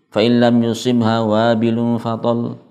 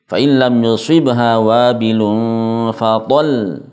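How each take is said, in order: First: The final syllable is said flat and unstressed. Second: The final syllable is stressed with slightly raised pitch. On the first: The speaker calls it wrong. "Kalau dibaca datar biasa seperti itu" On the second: The speaker calls it right. "harus nampak tasydidnya dengan cara ditekan dan suaranya diangkat uh, sedikit"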